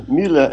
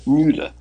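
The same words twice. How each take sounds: First: Müller with a short German ü; German pronunciation. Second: Müller with a long "yoo" vowel; contrasted mispronunciation. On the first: Guest contrasting two sayings of his name, Müller German-style. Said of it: "It sounds Müller as opposed to". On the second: Guest showing how not to say it, Müller as "Myoo-ler". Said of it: "as opposed to Müller". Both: Shown as a demonstration.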